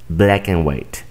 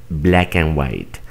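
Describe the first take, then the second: Both takes have the same delivery.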